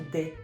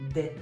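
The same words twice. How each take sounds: The two takes are said the same way.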